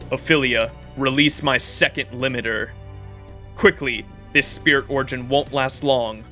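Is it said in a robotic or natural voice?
natural. It is said in a natural voice.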